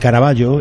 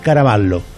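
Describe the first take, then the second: First: The name is said with a Spanish pronunciation. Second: The name is said with an Italian pronunciation. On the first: This is how the name is said at home. The speaker calls it right. "en España se pronuncia" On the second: This is how foreigners say the name. The speaker calls it wrong. "en Italia, sin embargo, es"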